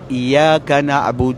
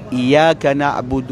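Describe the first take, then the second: Both takes have the same delivery.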